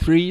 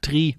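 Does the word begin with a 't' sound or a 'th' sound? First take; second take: th; t. First: The word begins with a soft 'th' sound. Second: The word begins with a hard 't' sound. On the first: The speaker calls it wrong. "zum Beispiel nicht three" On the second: The speaker calls it right. "sondern sagst tri, weil es einfach klarer über diesen Funk kommt"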